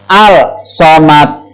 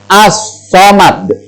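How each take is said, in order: First: The l is pronounced before the s sound. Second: The l merges into a doubled s sound. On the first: The speaker calls it wrong. "membacanya bukan" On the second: The speaker calls it right. "yang betul adalah as-somad"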